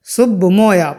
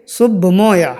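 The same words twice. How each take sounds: The two takes are said the same way.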